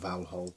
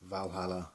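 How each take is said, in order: First: The name ends without a final vowel sound. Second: The name ends with a final 'a' sound. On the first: The speaker calls it right. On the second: The speaker calls it wrong.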